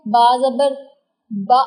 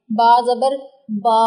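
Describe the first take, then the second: First: बा cut off abruptly with a glottal catch; jerked short vowel. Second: Last बा stretched out long; over-lengthened vowel. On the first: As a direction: end बा on a sudden jolt, like a hamza. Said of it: "झटका नहीं आने देना". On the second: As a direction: hold the final बा far too long. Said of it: "इसको लंबा कर देंगे". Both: Shown as a demonstration.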